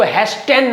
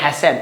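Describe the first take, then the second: First: "हैस्टेन" with the T pronounced; T sounded. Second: "हैसेन" with the T left silent. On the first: Teacher showing students the misreading, T sounded in "हैस्टेन". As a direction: say "हैस्टेन" with an audible T after the S. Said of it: "इसको हैस्टेन नहीं पढ़ते". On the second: Teacher showing students how to read it, silent T in "हैसेन". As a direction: say "हैसेन", S straight into the vowel. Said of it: "T silent होता है यहाँ पे". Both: Shown as a demonstration.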